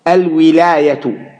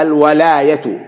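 First: Slow الولاية with an "i" after the waw, al-wilāyatu; kasra on the waw. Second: الولاية with an "a" after the waw, al-walāyatu; fatha on the waw. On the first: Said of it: "بكسر الواو". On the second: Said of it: "وقرأ الباقون بفتحها". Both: Shown as a demonstration.

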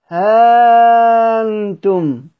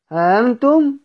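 First: ها in ها أنتم held very long and slow, higher and a little louder; stretched madd demo. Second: ها أنتم said quickly with a short ها; short demo reading. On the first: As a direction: draw out the ها of ها أنتم like a Quran reciter. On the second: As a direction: read ها أنتم plainly with no stretch on ها. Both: Shown as a demonstration. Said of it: "ممكن نقرأها ها أنتم".

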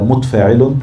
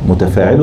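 First: Second متفاعل as "mutfaa'ilun", no vowel after t; silenced second letter. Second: First متفاعل as "mutafaa'ilun", with short a after t; full vowelled form. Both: Shown as a demonstration. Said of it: "متفاعل ولا متفاعل؟".

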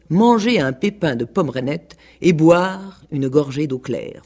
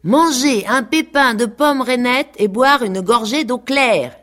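First: Slow, even dictation; dictating teacher. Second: High, loud sing-song recitation; animals in chorus. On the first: Peacock dictating the lesson before the chorus repeats, slow. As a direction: spell it out for the class to repeat. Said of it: "disaient en chœur". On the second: Farm animals chanting the lesson back in chorus, high and loud. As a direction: recite it back like eager pupils. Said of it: "disaient en chœur toutes les bêtes". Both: A narrator's reading.

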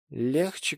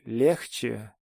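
First: Tipsy, rising "Легче" with a lazy slur; drunk slur. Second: Put-on drunk slur. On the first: Acted. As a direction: slur "Легче" upward, half-teasing. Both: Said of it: "пьяным, заплетающимся языком".

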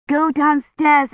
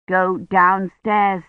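First: Higher, slow call through a door. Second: Slow, measured command at usual pitch; slow firm order. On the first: Kivrin calls to the knocking child, high and insistent. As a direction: call it out slowly, pitched up. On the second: Kivrin sends Agnes away from the sickroom, slow and firm. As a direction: send her off slowly and evenly. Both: A narrator's reading.

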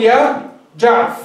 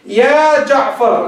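First: يا جعف said with the final ر dropped; clipped call. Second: Drawn-out يا جعفر as a vocative; slow call. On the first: Teacher demonstrating the shortened name. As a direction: cut يا جعف short with no last letter. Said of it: "أسقط الحرف الأخير". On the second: Teacher demonstrating a slow vocative call. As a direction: call يا جعفر slowly with the full final ر. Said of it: "الآن جعفر أسقط الحرف الأخير". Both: Shown as a demonstration.

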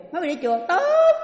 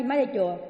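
First: Loud and high, booming praise; hearty approval. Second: Said in the usual way. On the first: Retold or imitated. Husband loudly praises his wife for going to temple. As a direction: burst out in loud delighted approval.

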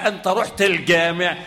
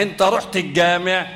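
First: الجامع with the lam pronounced as elɡameʕ; الجامع said carefully as el-gameʕ. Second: الجامع said eɡameʕ with the lam dropped; everyday الجامع, lam swallowed into the g; casual الجامع as e-gameʕ; lam assimilated. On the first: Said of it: "ما بقولوش". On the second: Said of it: "لا،". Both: Shown as a demonstration.

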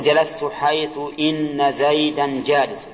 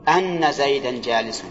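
First: Slow example sentence with إن as "inna"; kasra on إن. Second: Slow example with أن pronounced "anna"; open hamza on أن. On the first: Teacher gives the first of two readings, with inna. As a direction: say إن as "inna", starting with i. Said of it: "على رواية الكسر". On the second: Teacher gives the second of two readings, with anna. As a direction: say أن as "anna", starting with a. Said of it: "يجوز الوجهان". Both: Shown as a demonstration.

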